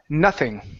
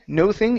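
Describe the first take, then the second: First: The word is said smoothly as one unit. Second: The word is split into two separate parts. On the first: The speaker calls it right. "it's n, nothing" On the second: The speaker calls it wrong. "instead of no thing"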